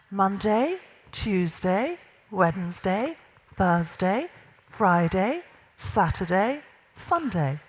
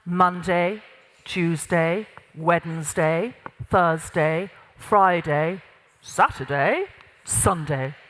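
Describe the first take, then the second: First: Lilting list, each day swinging upward until the last; no executive presence. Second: Low, measured gravitas voice, day by day; lowered pitch. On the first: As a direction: let each day lift like a tentative question. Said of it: "notice what this sounds like". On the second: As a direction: count off the days low and firmly grounded. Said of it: "pitch of your voice went down a little bit". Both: Shown as a demonstration.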